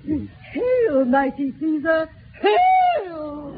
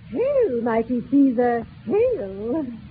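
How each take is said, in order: First: The last hail is said with extra force. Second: The last hail is said with little force.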